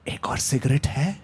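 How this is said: It is whispered softly, with a smile.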